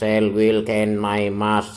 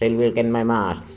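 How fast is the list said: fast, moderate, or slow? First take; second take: slow; fast. First: The words are said slowly. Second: The words are said very quickly. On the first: "Tiga kali yang pertama lambat" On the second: "Tiga kali yang terakhir dibaca cepat"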